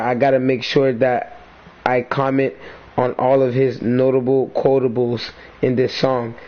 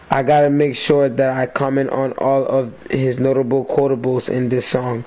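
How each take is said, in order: First: It is read at a slower pace. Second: It is read at a faster pace.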